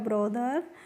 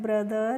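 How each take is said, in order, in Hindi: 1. पहला स्वर 'o' जैसा सुनाई देता है। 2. पहला स्वर 'uh' जैसा सुनाई देता है। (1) "हम पढ़ते हैं ब्रदर या ब्रोदर" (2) "हम पढ़ते हैं ब्रदर या ब्रोदर"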